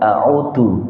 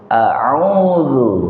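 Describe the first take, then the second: First: The middle consonant is a hard, compressed sound. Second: The middle consonant is a soft, flowing dh sound. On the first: The speaker calls it wrong. "jangan a'udzu ya, beda" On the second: The speaker calls it right. "Zalnya lebih ar-rakhwah, lebih lunak, lebih lembut"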